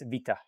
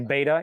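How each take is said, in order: First: The word begins with a V sound. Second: The word begins with a B sound. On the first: This is how Greek speakers say the letter. "in Greek, they, it's vita" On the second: This is how English speakers say the letter. "we say beta"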